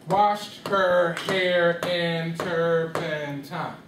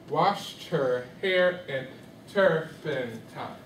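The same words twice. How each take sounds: First: Washed her hair in turpentine, very slow, every syllable held equally long; one beat per syllable. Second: Washed her hair in turpentine, slowly, paired short syllables and a longer TINE; rhythm in four beats. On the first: Teacher showing students too many beats, one beat per syllable. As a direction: chant seven long even beats, WASHED-HER-HAIR-IN-TUR-PEN-TINE. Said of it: "that's how many beats?". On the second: Teacher fitting the line into four beats, measured rhythm. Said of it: "use T Ts in some parts". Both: Shown as a demonstration.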